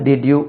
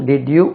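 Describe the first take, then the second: No difference in how they are said.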